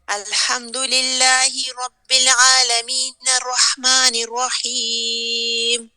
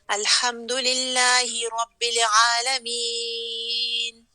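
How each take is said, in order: First: Aalameen runs straight into the next verse. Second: The voice stops and breaks after aalameen.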